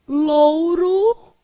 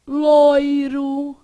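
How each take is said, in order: First: "louro" with OU, held long; first variant. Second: "loiro" with OI, held long; second variant. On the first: Teacher listing accepted forms, "louro" with long OU. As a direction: stretch the OU in "louro", loudly. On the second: Teacher listing accepted forms, "loiro" with long OI. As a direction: stretch the OI in "loiro", loudly. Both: Shown as a demonstration. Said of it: "Você pode falar".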